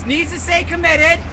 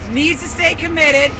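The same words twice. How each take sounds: The two takes are said the same way.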